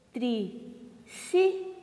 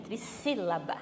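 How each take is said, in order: First: TRISSÍLABA split into tri, sí, la-ba with long pauses; syllable by syllable. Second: Said in the usual way. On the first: Shown as a demonstration. Teacher shows pupils the term, "Trissílaba" syllable by syllable. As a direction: say "Trissílaba" slowly, piece by piece. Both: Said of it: "Ó o acento, hein?".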